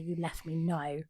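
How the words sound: It falls at the end like a statement.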